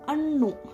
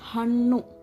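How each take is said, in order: First: The word begins without an h sound. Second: The word begins with an h sound. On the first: The speaker calls it wrong. "Ha is replaced and, and they will say annu" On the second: The speaker calls it right. "Hannu means fruits"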